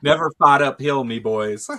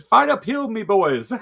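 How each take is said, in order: First: A louder mock Irish accent, hammed up; the worst Irish accent you can manage; bad Irish accent. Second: Much higher mock Irish accent, laughing; hammed-up Irish accent breaking into laughter; squeaky mock Irish accent. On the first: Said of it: "the worst Irish accent you've ever heard". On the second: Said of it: "He said".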